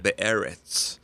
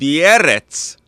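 First: The word is said in an American accent. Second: The word is said in a Russian accent. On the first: "you said it in an American accent" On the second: "like a Russian"

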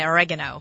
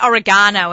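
First: It is said the American way. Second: It is said in a non-American way. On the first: "you Americans say oregano" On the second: "I say oregano"

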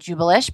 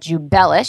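First: The stress is not on the bell syllable. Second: The stress is on the bell syllable. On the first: The speaker calls it wrong. "I was pronouncing it wrong" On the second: The speaker calls it right. "so emphasis on the bell"

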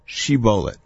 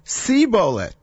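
First: The word begins with a 'sh' sound. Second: The word begins with an 's' sound. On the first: The speaker calls it right. "Say the word shibolet" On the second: The speaker calls it wrong. "he is not able to pronounce it correctly"

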